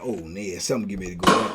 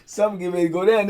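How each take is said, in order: First: Low, hushed, half-muttered warning; hushed ominous aside. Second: Said in the usual way. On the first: Retold or imitated. Storyteller's inner thought at the jail, low and hushed. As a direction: drop it low like trouble is coming. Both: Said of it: "I'm like".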